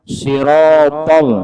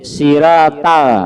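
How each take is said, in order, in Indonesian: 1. Bunyi s dan t berat dan tegas. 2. Bunyi s dan t ringan dan biasa saja. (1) "Orang misalnya sirotol" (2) "huruf sin dan huruf ta, maka kada sah"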